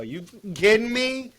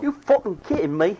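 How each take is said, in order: First: Loud, much higher Jersey "You kidding me?"; Jersey outburst. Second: Much higher mock Jersey "You fucking kidding me?"; Jersey outburst. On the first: Retold or imitated. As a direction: blurt it like a wound-up Jersey guy. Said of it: "Benny drops the G". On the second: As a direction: toss it back in a playful Jersey voice.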